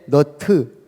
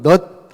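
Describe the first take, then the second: First: It has two syllables with an added vowel. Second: It is one short syllable ending in t. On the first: "근데 우리는 어떻게 해?" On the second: "영어로는 넛 하면 되잖아"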